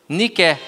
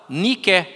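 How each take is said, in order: The two takes are said the same way.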